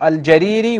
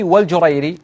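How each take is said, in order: First: First الجريري said al-Jariri; fatha on the jim. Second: والجريري said wal-Jurayri; damma on the jim. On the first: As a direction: say الجريري with short a, long i: al-Jariri. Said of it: "يقول بفتح الجيم". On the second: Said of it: "بضم أوله أو بضم الجيم". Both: Shown as a demonstration.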